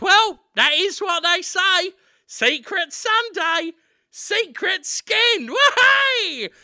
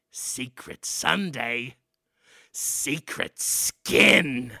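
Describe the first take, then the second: First: High, slow cockney lad; cheerful high Cockney boy; high, chirpy Cockney chant. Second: Low, very slow ominous chant; low, drawn-out rat elder intoning; rat man father. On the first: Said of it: "Daniel Radcliffe says". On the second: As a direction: drag out the motto low and slow. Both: Acted.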